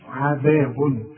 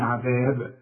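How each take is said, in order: First: عذاب with the tanwin sounded, عذابٌ; tanwin in continuation. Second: عذاب with a silent b at the stop; stop form. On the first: Teacher showing the joined form. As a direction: keep the un ending when joining. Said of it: "ده عند الوصل". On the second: Teacher showing the stop form. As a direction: stop dead on the b. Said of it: "إذا وقفت إحنا بنسكن". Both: Shown as a demonstration.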